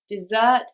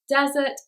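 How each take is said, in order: First: The stress is on the second syllable. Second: The stress is on the first syllable. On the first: It means a sweet dish. "it's on the second syllable" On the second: It means a hot dry place. "it's on the first"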